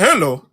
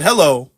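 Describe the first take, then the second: First: Mock accent with r-coloured first vowel in "Hello"; slipping accent. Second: Lightly imitated accent on "Hello"; first, milder take of the mimicked accent; slipping accent. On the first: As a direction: say "Hello" as "herlo", imitating his accent. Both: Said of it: "his accent slipping a little bit".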